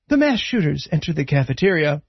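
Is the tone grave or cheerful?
grave. It is said in a grave, serious tone. The event is treated as a tragedy. "at various points, it'll be like"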